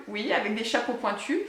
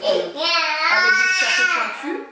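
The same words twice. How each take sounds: First: Said in the usual way. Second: High, slow, mock-eerie croak on the hats; spooky witch voice. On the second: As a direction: put on a spooky little witch tone. (voix de sorcière pour rire, aiguë et lente)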